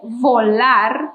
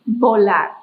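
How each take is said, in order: First: The word begins with a v sound. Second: The word begins with a b sound. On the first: The speaker calls it wrong. "you cannot say volar as we do not have a V sound in Spanish" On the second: The speaker calls it right. "We say it with a B sound"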